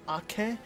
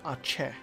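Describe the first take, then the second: First: The middle consonant is a hard k sound. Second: The middle consonant is a ch sound. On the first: The speaker calls it right. "I've always called it Ake" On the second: The speaker calls it wrong. "there's no C H"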